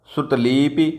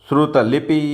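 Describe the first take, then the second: No difference in how they are said.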